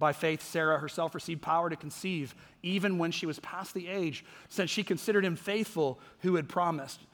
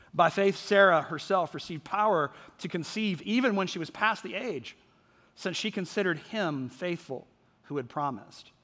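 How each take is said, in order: Both takes have the same delivery.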